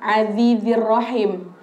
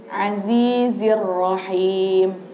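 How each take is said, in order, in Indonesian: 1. Bunyi z-nya seperti th yang lembut. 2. Bunyi z-nya adalah z yang bergetar dengan jelas. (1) "bukan azizir rahim. Jangan jangan sampai salah" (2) "tapi pakai za"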